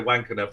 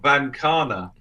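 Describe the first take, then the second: First: The name begins with a W sound. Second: The name begins with a V sound. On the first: "I could say Wankana for the British audience" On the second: "the pronunciation um, and the spelling are, are two completely different things"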